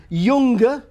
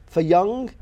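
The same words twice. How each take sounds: First: "younger" with the g sounded after ng. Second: Said in the usual way. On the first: Shown as a demonstration. Scholar showing Midlands ng, "younger" with hard g. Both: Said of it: "G is still pronounced".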